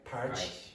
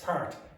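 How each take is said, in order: First: The final t sounds like ch, Brazilian-style. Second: The word ends in a plain t sound.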